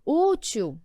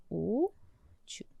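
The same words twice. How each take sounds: First: Said in the usual way. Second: "Útil" softly, as two separate syllables; split into syllables. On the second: Shown as a demonstration. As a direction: hold the ú of "Útil", pause, then a hushed til. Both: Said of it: "Vamos fazer a separação".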